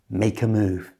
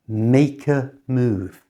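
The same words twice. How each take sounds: First: The phrase is said at normal conversational speed. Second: The phrase is said slowly and carefully. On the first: "And at normal speed" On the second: "So slowly it sounds like this"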